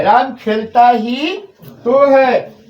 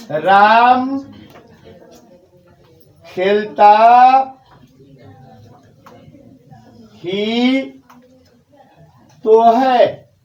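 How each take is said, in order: First: Slow, "तो" falls firmly; stress on ही तो. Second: "ही तो" slowly pressed, words spaced; stress on ही तो. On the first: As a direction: stress "ही तो" slowly. (धीमे से "ही तो" पर बल) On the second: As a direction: lean on "ही तो" in राम खेलता ही तो है. ("ही तो" पर ज़ोर देकर) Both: Shown as a demonstration. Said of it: "ये जो डाला जा रहा है".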